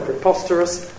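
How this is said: The pitch stays level at mid height. "Then the mid-level"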